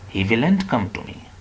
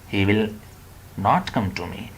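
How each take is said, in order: First: It is contracted to the form 'willn't'. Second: Both words 'will not' are said in full. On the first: "Both are wrong" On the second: "Both are wrong"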